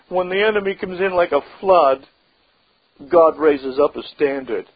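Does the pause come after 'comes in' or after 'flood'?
after flood. The pause comes after the word flood. The enemy comes in like a flood. The speaker calls it wrong. "Some Christians read it this way"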